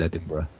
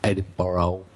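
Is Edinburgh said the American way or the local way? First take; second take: local; American. First: It is said with the local pronunciation. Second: It is said with an American pronunciation. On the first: The speaker calls it right. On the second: The speaker calls it wrong.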